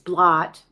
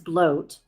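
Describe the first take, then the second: First: The vowel is short, as in 'hot'. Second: The vowel is long, as in 'boat'. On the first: This is how the spelling looks. The speaker calls it wrong. "I know that it reads blot" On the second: This is how the word is actually said. The speaker calls it right. "it is pronounced as bloat"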